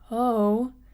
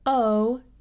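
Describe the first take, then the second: First: The vowel starts softly with audible breath. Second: The vowel starts with a firm glottal catch. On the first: "there's a little bit more air that's coming through" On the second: "If you use a glottal onset, like if I were to say"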